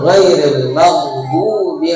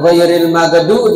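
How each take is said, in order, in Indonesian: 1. Setiap huruf diucapkan dengan jelas sampai akhir. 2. Ada huruf yang dihilangkan dan akhirannya dipotong. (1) "yang betul" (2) "jangan ghairil magdu dibaca hilang"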